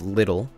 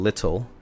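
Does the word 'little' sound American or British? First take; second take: American; British. First: The word sounds American, with a soft t. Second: The word sounds British, with a clear t.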